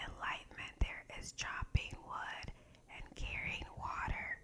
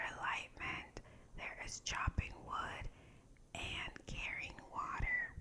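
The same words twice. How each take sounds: The two takes are said the same way.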